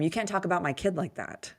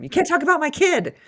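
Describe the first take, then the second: First: Said in the usual way. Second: High, loud playful yell; mock yell. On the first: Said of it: "And I'll tell him". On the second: Mother yelling at her self-critical son, high playful yell. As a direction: yell it up high, half joking.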